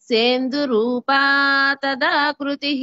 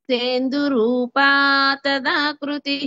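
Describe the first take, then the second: No difference in how they are said.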